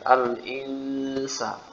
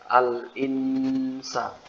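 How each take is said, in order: First: The n is blurred straight into the next sound. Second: The n is clear with a long nasal hold. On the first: The speaker calls it right. "yang benar kan nunnya disamarkan" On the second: The speaker calls it wrong. "Gunahnya ditahan"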